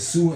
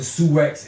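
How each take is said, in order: First: The word ends in a vowel, x silent. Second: The word ends with a pronounced x sound. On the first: The speaker calls it right. "it's really pronounced Sue" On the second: The speaker calls it wrong. "saying Suex because it's spelled S I O U X"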